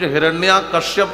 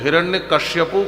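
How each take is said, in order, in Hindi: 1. पहला शब्द दीर्घ स्वर पर खत्म होता है। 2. दूसरा शब्द kashyapu जैसा बोला जाता है। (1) "कुछ हिरण्या कश्यप कहते हैं" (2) "कुछ हिरण्य कश्यपु कहते हैं"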